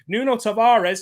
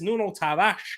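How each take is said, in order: First: The name is pronounced the English way. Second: The name is pronounced the Portuguese way.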